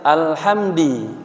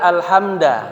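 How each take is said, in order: First: The word ends with an i vowel. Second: The word ends with an a vowel. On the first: "Kemudian ada yang alhamdi" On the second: "Ada yang membaca alhamda"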